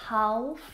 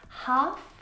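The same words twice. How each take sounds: First: The L sound is pronounced. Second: The L sound is silent. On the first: The speaker calls it wrong. "not half" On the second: The speaker calls it right. "All of these words have a silent L"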